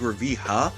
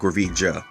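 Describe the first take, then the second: First: The middle consonant is an h sound. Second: The middle consonant is an English j sound. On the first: The speaker calls it right. "I'm imagining it like Spanish, how J sounds like an H" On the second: The speaker calls it wrong. "instead of saying Gravija"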